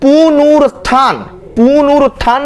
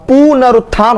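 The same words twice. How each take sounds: First: पुनरुत्थान said as poo-noo-rut-thaan; stretched, higher पुनरुत्थान with 'nu' instead of 'na'; wrong pronunciation. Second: पुनरुत्थान as pu-na-rut-thaan; correct pronunciation. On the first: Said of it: "नहीं होता". (पुनरुत्थान को गलत 'पुनुरुत्थान' बोलें) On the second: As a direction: clear short 'na' in पुनरुत्थान. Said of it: "होता है". (पुनरुत्थान में 'न' साफ़ बोलें) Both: Shown as a demonstration.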